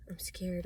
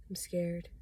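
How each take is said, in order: First: Said in the usual way. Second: Hushed, breathy admission of fear; scared whisper. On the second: Real, not acted. Admitting fear to viewers, scared whisper. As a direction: whisper it like a confession.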